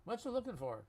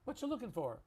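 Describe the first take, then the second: Both takes have the same delivery.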